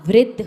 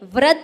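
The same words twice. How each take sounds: First: The r is said with an 'i' vowel. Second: The r is said without an 'i' vowel. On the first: The speaker calls it right. "वृद्ध होता है" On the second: The speaker calls it wrong. "वृद्ध व्यक्ति नहीं होता"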